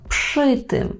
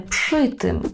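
No difference in how they are said.

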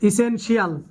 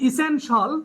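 First: The ending is said as two syllables, shee-al. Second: The ending is said as one syllable, shul. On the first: The speaker calls it wrong. "এই উচ্চারণগুলো আমরা ভুল উচ্চারণ করি।" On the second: The speaker calls it right. "আমরা বলবো এখন থেকে শল"

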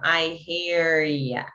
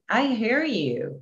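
First: The last word is reduced to 'ya'. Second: The last word is a full 'you'. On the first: The speaker calls it right. "Não, I hear ya" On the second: The speaker calls it wrong. "Eles não falam I hear you"

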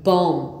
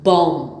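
First: The word ends on the m sound. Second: The same.

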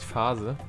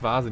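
First: The word begins with a voiceless F sound. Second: The word begins with a voiced V sound. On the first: The speaker calls it wrong. "nicht Phase" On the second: The speaker calls it right. "Man sagt Vase"

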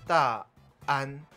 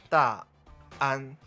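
First: A throat catch separates the two syllables. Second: The same.

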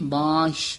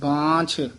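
First: The word ends in a soft 'sh' sound. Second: The word ends in an aspirated 'chh' sound. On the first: The speaker calls it wrong. "ਬਾਂਸ਼ ਇਸ ਤਰ੍ਹਾਂ ਨਹੀਂ ਕਹਿਣਾ" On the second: The speaker calls it right. "ਛੱਛਾ ਬੋਲਣਾ"

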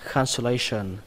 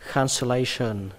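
Both takes have the same delivery.

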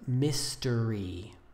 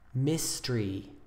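First: The word is said with three syllables. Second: The word is said with two syllables.

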